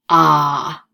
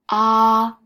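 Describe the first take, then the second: First: It is said with a curving third tone. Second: It is said with a high, level first tone. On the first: "Third tone is ah, ... like you're driving the curves" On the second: "ah is the first tone, higher"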